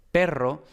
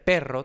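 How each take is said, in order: First: Said in the usual way. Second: "perro" with a strong puff of air after the p; "perro" opening on a breathy, aspirated p. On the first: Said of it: "perro con la P normal". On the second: Shown as a demonstration. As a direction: burst the p of "perro" with English-style aspiration. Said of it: "para ellos entender perro tendría que ser perro".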